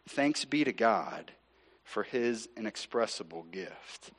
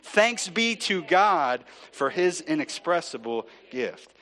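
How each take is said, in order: First: It is said at a quieter volume. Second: It is said at a louder volume.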